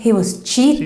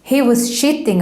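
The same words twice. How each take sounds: First: Cheating begins with a ch sound. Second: Cheating begins with an sh sound. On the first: The speaker calls it right. "Instead of saying" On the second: The speaker calls it wrong. "the Swede is talking about the latest gossip"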